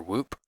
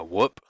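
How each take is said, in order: First: Long, tense oo in Whoop, like "woop"; long-vowel pronunciation. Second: Short, lax vowel in Whoop, like "wuup" in "wool"; short-vowel pronunciation. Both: Shown as a demonstration. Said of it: "how to pronounce it".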